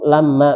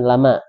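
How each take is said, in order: First: The m sound is doubled and held longer. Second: The m sound is single and short. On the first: It means 'when'. The speaker calls it right. "Itu lama" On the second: It means 'not'. The speaker calls it wrong. "bukan lama"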